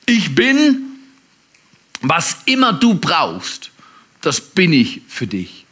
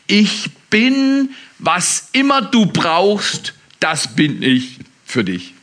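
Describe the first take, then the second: First: Slower still, pausing after Ich bin; slow preached promise; slow emphatic repeat. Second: Slow, weighty, pausing on bin and immer; slow preached promise; slow emphatic proclamation. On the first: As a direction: repeat it slowly and let it sink in. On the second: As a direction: lay each word down slowly. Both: Shown as a demonstration. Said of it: "repeated key sentence, preached".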